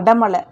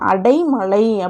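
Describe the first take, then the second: First: The first syllable is said as plain 'ada'. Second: The first syllable is said as 'adai'. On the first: The speaker calls it wrong. "அது வந்து தவறானது" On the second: The speaker calls it right. "சரியானது என்னங்க வரும்?"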